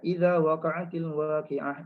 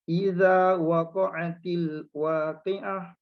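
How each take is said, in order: First: It is recited at a moderate speed. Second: It is recited slowly, word by word. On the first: "dia baca kelajuan yang sederhana"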